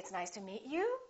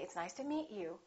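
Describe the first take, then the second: First: The pitch goes up at the end. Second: The pitch goes down at the end. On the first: "the pitch going up" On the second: "the pitch going down"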